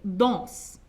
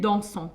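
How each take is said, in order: First: The plural ending is silent. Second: The plural ending is pronounced as ont. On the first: This is the usual way to say it. "au lieu de dire il danse, D A N S E N T, danse" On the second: This is an older regional form. "qui disent ils dansent. ... et O N T"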